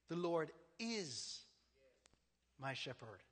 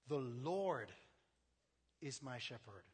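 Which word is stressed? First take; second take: is; Lord. First: The word is carries the stress. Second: The word Lord carries the stress.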